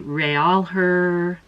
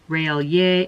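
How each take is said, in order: First: It is said with a plain English accent. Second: It is said with a French-sounding accent.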